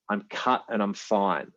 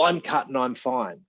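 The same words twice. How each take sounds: First: It is said in a plain, calm tone. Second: It is said in a sharp, defensive tone. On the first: A simple statement of fact. "But they don't say it like that" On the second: A reactive response from an unaware nervous system. "that nervous system response that they're throwing out there"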